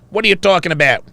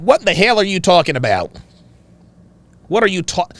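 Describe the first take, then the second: First: Put-on rough stab at a Wisconsin accent; attempted Wisconsin accent. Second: Attempted Chicago accent. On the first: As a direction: imitate a dad in an unsure Wisconsin accent. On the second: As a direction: imitate a dad in an unsure Chicago accent. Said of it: "In a Chicago accent".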